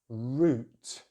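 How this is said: The vowel is a long rounded oo. "British English use the long vowel sound oo"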